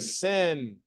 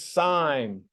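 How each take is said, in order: First: It is said with a short i, like 'sin'. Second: It is said with a long i, like 'sign'. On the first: The speaker calls it wrong. "We do not say sin" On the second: The speaker calls it right. "We say you are sine. This is sine"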